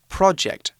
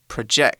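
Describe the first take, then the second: First: The stress is on the first syllable. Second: The stress is on the second syllable. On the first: It is the noun meaning a planned piece of work. The speaker calls it right. "it should be pronounced project" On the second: It is the verb meaning to cast an image. The speaker calls it wrong. "not project"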